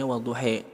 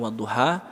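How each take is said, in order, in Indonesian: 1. Vokal akhirnya condong ke bunyi 'e'. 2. Vokal akhirnya berbunyi 'a' terbuka. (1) "riwayat lain bacanya wadduhe" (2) "di kita bacanya wadduha"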